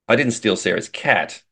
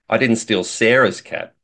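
First: The stress is on the word 'cat'. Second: The stress is on the word 'Sarah's'.

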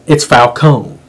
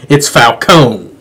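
Both takes have the same delivery.

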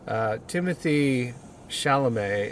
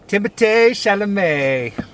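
First: The name is said with English sounds. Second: The name is said with French sounds.

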